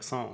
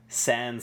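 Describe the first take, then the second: First: The word is said with a French pronunciation. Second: The word is said with an English pronunciation. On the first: "a French person would pronounce it sans, like sans" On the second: "They say sans serif"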